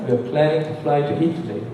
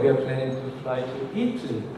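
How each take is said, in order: First: Planning to fly keeps some rhythmic strength. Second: Planning to fly is weakened almost away. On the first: The speaker calls it right. "문장을 다 써야 되면 ... 이렇게 발음을 해야 됩니다" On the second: The speaker calls it wrong. "이런 식으로 하면 이건 영어가 아니거든요"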